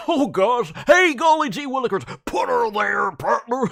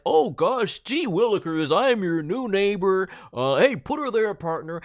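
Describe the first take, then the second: First: Hyper bouncy golly-gee neighbor; really into it. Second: Chirpy folksy neighbor greeting; golly-gee friendly neighbor; eager neighbor voice. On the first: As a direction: throw your whole body into it. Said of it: "You can get really, really into it". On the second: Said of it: "Instead of the, like". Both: Shown as a demonstration.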